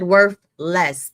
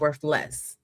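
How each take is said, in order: First: It is said as two separate words. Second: It is said as one single word. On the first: The stock is worth a smaller amount. "I said worth less" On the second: The stock has no value at all. "not worth less"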